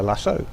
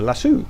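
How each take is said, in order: First: "lasso" with a final oh vowel; lasso as "lassoh". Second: "lasso" with a final oo vowel; lasso as "lassoo". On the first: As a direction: end "lasso" like the word "so". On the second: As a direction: end "lasso" like the word "Sue". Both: Shown as a demonstration. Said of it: "Is it a lasso or a lasso?".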